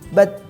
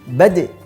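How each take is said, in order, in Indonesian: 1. Huruf d di akhir berakhir tanpa pantulan yang kuat. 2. Huruf d di akhir dilepas dengan pantulan yang kuat. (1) "tidak memantulkan dengan kuat" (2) "Saat sukun kita pantulkan dengan kuat"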